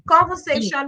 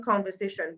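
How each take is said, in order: First: Conversation called out louder with a rising tune; Conversation, lifted and raised; emphatic conversation. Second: Conversation dropped soft with a falling close; conversation, falling away quietly; fading conversation. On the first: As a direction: announce the word Conversation like a topic heading. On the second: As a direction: let conversation sink quietly, settling the point. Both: Shown as a demonstration. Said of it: "But what is the quality of the conversations".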